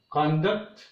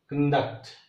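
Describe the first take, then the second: First: "conduct" as CON-duct, strong first syllable; stress on first syllable. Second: "conduct" as con-DUCT, strong second syllable; stress on second syllable. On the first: Teacher repeats the noun conduct, stressed on CON. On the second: Teacher repeats the verb conduct, stressed on DUCT. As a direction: slip over con, hit DUCT in "conduct". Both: Shown as a demonstration. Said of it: "The same way".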